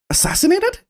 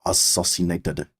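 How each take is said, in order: First: Assassinated said as "a-SASS-in-ated", with the a of cat and a high questioning rise; proper pronunciation. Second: Assassinated said as "a-SAH-sin-ated", with an open ah in the second syllable; mispronounced assassinated. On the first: Friend gasping at the news, saying assassinated properly as "a-SASS-in-ated". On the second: Inspector explaining his orders, saying assassinated as "a-SAH-sin-ated". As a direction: say assassinated with ah instead of the a in cat. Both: Acted. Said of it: "you pronounced it properly".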